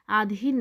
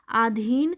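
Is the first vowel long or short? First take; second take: long; long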